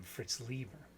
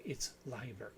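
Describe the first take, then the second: First: Lieber said as LEE-ber; "Lieber" rhyming with "fever"; habitual mispronunciation. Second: Leiber said as LYE-ber; "Leiber" with a long I, correcting the name; corrected pronunciation. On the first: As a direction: say Lieber with a long "ee", as in German Lieb. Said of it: "I just automatically call". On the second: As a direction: say Leiber with a first syllable rhyming with "eye". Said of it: "No, it's Leiber". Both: Shown as a demonstration.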